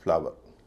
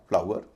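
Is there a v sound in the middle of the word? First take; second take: yes; no. First: A v sound joins the two vowels. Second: The vowels glide together without a v sound. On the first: "हम बोलते हैं फ्लावर" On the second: "तो बोला जाएगा फ्लावर"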